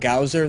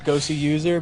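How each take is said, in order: First: The name is blended into one short word. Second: The name is said as two separate words. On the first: The speaker calls it wrong. "forgive us if we occasionally call him Gowser" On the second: The speaker calls it right. "It's Gosu user"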